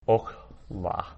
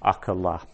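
First: "okla" in two syllables, short o; closed first syllable. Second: "Akala" in three syllables, ah-kuh-la; long first "A", very short middle vowel in "Akala"; long A, vocal shva. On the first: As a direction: say "okla" as ok-la, no vowel after the k. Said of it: "So this would be pronounced as". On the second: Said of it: "which makes that a long A". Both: Shown as a demonstration.

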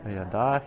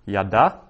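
First: Said in the usual way. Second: Yada said clearly as YAH-dah; Hebrew yada. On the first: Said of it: "he knew". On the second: Shown as a demonstration. Teacher models yada for students, careful Hebrew pronunciation. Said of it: "yada, he knew".

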